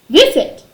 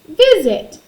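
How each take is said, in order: First: The middle S is a hissing, unvoiced sound. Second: The middle S is a buzzing, voiced sound. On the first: The speaker calls it wrong. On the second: The speaker calls it right.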